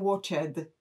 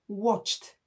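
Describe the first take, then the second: First: The word ends without a clearly heard t. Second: The word ends with a clearly heard t. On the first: The speaker calls it wrong. "a nie watched" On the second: The speaker calls it right. "To jest watched z wyraźnym ty na końcu"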